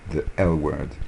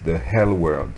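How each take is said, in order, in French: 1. Le L se dit sans son h. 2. On ajoute un son h avant le L. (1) "il ne faut pas dire enfer, mais L" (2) "ils mettent un H devant L et ils disent the hell word"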